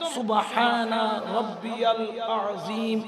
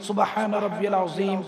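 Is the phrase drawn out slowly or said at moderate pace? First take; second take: drawn out; moderate. First: The phrase is drawn out very slowly. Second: The phrase is said at a moderate pace. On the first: The speaker calls it wrong. "এইভাবেও পড়ার দরকার নাই" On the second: The speaker calls it right. "এইভাবে পড়েন"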